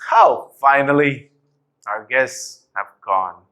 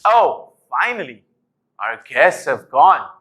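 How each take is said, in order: First: Annoyed tone. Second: Angry tone. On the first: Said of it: "I'm gonna be annoyed". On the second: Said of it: "doing it in an angry tone". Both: Shown as a demonstration.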